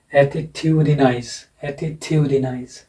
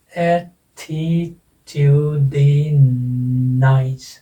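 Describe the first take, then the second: First: "attitudinize" as one word, stress on TU; stress demonstration. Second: "attitudinous" very slow, each syllable held separately. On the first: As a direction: lean on TU in "attitudinize", said deliberately. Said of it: "लेकिन इसको बोला ऐसे ही जाएगा". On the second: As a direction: stretch "attitudinous" out syllable by syllable with pauses. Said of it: "कितने syllable हैं?". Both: Shown as a demonstration.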